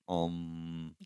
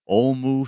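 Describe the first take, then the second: First: The word ends on a plain m sound. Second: The word ends with an added u vowel. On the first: "it's spelled A U M, but it's Om" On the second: "it is pronounced sometimes, or at least they did it in their day, Omu"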